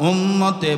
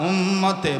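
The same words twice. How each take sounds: The two takes are said the same way.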